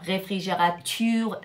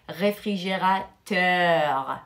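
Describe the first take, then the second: First: Réfrigérature with the ending ture instead of teur; wrong pronunciation. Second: Réfrigérateur with the ending clearly teur; correct pronunciation. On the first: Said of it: "ça, c'est pas juste". (réfrigérature, fin en ture au lieu de teur) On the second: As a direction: give the right form réfrigérateur, ending on teur. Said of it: "Il faut le pro-, euh, le prononcer". (réfrigérateur, bien finir en teur) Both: Shown as a demonstration.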